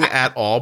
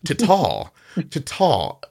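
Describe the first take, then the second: First: Both words are said fully, with the vowel of 'at'. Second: The 'a' is dropped, giving a single 'tall' sound. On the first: This is what was meant. "you were saying at all" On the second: This is how it actually came out. "it like got caught in your mouth"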